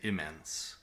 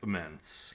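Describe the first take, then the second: First: The stressed vowel is a full 'eh' sound. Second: The stressed vowel is reduced to a schwa. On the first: The speaker calls it right. "I say immense. Slightly different vowel there" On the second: The speaker calls it wrong. "I don't say immense"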